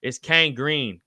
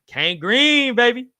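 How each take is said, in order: First: Said in the usual way. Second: Hyped. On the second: Real, not acted. Host hyping up a nickname a viewer suggested. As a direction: sell the nickname like a hype man.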